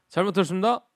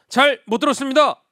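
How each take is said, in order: First: The phrase is said somewhat shorter. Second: The phrase is said in full, every syllable. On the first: The speaker is one rank higher. "1병으로 가게 되면" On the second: The speaker is the lowest rank. "2병 같은 경우는"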